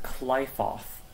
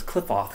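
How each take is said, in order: First: Qliphoth with a long "eye" in the first syllable; Qliphoth, first vowel as in "fly"; game's pronunciation. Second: Cliffoth with a short "i", like "cliff"; Cliffoth, first syllable rhyming with "stiff"; speaker's usual pronunciation. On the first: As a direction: say Qliphoth as KLY-foth. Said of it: "in this game they pronounce it". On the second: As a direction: say Cliffoth as KLIFF-oth. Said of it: "I always pronounce it as Cliffoth". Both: Shown as a demonstration.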